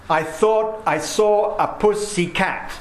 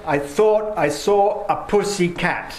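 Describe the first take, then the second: First: "thought", "saw", "puss" and "cat" beaten out slowly, higher; rhythmic stress. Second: "thought", "saw", "puss", "cat" each hit, a bit higher; rhythmic stress. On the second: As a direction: read it as four clear beats on "thought", "saw", "puss", "cat". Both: Shown as a demonstration. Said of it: "in that line you've got thought, saw, puss, and cat".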